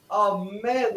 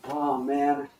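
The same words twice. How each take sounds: First: High, thrilled exclamation; excited. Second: Drawn-out worried groan; worrying. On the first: Coach models excitement for the class, thrilled. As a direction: exclaim it in delighted celebration. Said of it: "getting excited". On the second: Coach models worry for the class, fretful. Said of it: "really get that worry worked up". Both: Shown as a demonstration.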